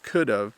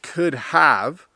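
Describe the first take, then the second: First: The word 'have' is reduced to sound like 'of'. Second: The word 'have' is said in full. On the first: "which is could have ... it actually sounds like of" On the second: "the contraction of could have"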